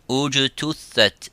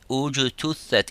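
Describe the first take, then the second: Both takes have the same delivery.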